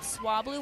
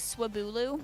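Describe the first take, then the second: First: The name is said with two syllables. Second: The name is said with three syllables. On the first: The speaker calls it right. "one of the funniest mispronunciations that I have since corrected" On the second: The speaker calls it wrong. "I thought Swablu was Swabulu"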